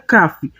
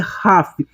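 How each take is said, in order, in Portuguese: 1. Começa com um som de k duro. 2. Começa com um som de kh gutural. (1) "Se ele tivesse, seria Caf" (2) "Como não tem, é Raf"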